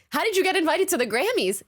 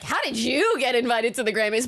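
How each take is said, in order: First: The question sounds sincere and curious. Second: The question sounds accusing and doubtful. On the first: The asker simply wants to know how it happened. "he was really just asking" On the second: The asker doubts the listener deserved the invitation. "it kind of sounded like"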